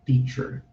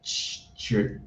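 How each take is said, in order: First: "teacher" said in full as tee-cher, both syllables clear; correct teacher. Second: "teacher" whispered as t͡ʃə with the first syllable dropped; whispered wrong version of "teacher". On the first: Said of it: "é". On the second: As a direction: breathe "teacher" as a clipped wrong form. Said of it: "não fale teacher". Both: Shown as a demonstration.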